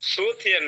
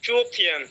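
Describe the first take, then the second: First: The word begins with an s sound. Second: The word begins with a ch sound. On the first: The speaker calls it wrong. "সুথিয়ান না" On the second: The speaker calls it right. "এটা হবে চুথিয়ান"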